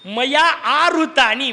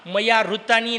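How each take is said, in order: First: A long 'aa' vowel comes before 'hritani'. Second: No long vowel comes before 'hritani'. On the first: The flowers were brought by me. The speaker calls it right. "आ मोठा करायचा" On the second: The flowers were stolen by me. The speaker calls it wrong. "मया ऋतानी नाही"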